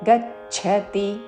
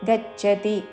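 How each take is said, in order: First: The middle consonant is aspirated, with a breath. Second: The middle consonant is plain, without a breath. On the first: The speaker calls it right. "మహాప్రాణాక్షము ఛావత్తు" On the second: The speaker calls it wrong. "గచ్చతి అనకూడదు"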